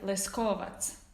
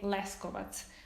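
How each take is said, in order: First: The stress is on the second syllable. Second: The stress is on the first syllable. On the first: This is how speakers of another local variety say it. "it's on the second syllable" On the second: This is the speaker's own local way of saying it. "the accent is on the first syllable"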